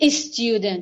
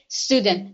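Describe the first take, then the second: First: An extra vowel sound comes before the s. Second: The word starts directly with the s sound. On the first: The speaker calls it wrong. "We don't say student" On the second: The speaker calls it right. "we say student"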